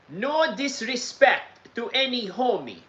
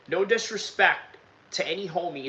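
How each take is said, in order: First: It is said in a put-on Russian accent. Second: It is said in his normal accent.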